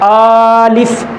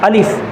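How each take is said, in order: First: The first vowel is drawn out long. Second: Short vowels and a single L sound. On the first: The speaker calls it wrong. "इस तरह लंबा करके तो नहीं पढ़ रहे" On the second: The speaker calls it right. "बल्कि ये अलिफ अलिफ अलिफ इस तरह है"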